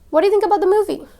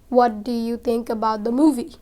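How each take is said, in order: First: The words run together like one word. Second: Each word is said separately and fully. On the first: The speaker calls it right. "a native would rather say" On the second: The speaker calls it wrong. "if you speak it the normal way"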